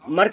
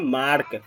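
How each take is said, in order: First: The vowel is a short 'uh' sound. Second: The vowel is a long 'ah' sound. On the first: The speaker calls it wrong. "मर्क नहीं बोलेंगे इसको" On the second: The speaker calls it right. "इसको बोलेंगे मार्क"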